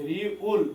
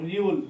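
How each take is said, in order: First: "রিউল" split into রি, then উল; syllable by syllable. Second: Said in the usual way. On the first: Shown as a demonstration. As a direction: sound out "রিউল" in two separate parts. Teacher breaks up letter name. ("রিউল" ভেঙে ভেঙে, রি... উল)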